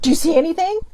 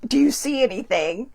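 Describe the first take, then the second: First: Mom's call, higher and louder; mother suddenly calling out from behind. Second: Said in the usual way. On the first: Retold or imitated. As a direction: startle her with the question. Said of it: "my mom's like". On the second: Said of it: "when she just asked me".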